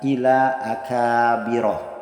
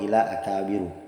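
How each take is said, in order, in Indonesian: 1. Kata terakhir diakhiri dengan vokal a. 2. Kata terakhir diakhiri dengan vokal u. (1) "tanda majrurnya berharokat fathah" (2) "Tidak boleh dibaca"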